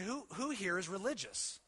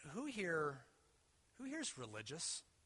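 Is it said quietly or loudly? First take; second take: loudly; quietly. First: It is said louder. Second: It is said at a normal, quieter volume.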